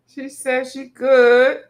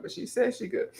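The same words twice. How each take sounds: First: "good" stretched slow and loud with a rise; emphatic repeat. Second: Said in the usual way. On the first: Shown as a demonstration. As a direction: draw out "she says she good" and lift "good".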